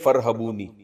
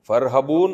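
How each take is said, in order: First: The word ends with a final ee vowel. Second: The word ends on the n sound, no vowel. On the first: The reader joins it to what follows. "जब मिला के पढ़ेंगे" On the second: The reader stops at this word. "जब वकफ करेंगे तो"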